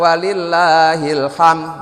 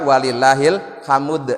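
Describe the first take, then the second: First: The final d sound is dropped entirely. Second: A u vowel is inserted between m and d. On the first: The speaker calls it wrong. "huruf dalnya hilang" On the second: The speaker calls it right. "Boleh juga walillahil hamud. Nah, saya memilih walillahil hamud"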